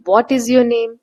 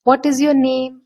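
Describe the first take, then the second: First: "What is your name?" loud start, voice sinking toward name; falling intonation. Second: "What is your name?" with what hit high and loud, falling to name; falling intonation. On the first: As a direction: stress what, then fall away. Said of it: "what पे हमने focus किया". ("What" पर focus, गिरती हुई आवाज़) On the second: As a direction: start high on what, let the voice drop by name. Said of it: "तो हमारा falling intonation होता है।". ("What" पर ज़ोर, अंत में आवाज़ नीचे) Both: Shown as a demonstration.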